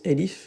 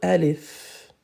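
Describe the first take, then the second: First: The first vowel sounds like 'e'. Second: The first vowel sounds like 'a'. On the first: This is how it is said in some countries. "Dans certains pays, ils le prononcent elif" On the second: This is the standard Arabic pronunciation. "mais en arabe, alif"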